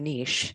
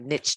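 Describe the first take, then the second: First: The word is said in a fancy, refined way. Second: The word is said in a plain, businesslike way. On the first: The speaker feels upscale. "if you're feeling a little bougie, it is the niche" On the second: The speaker is getting down to business. "if you're feeling like you're just getting down to business"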